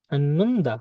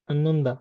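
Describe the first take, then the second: First: Slow model. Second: Said in the usual way. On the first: Shown as a demonstration. Teacher models word slowly, then normally.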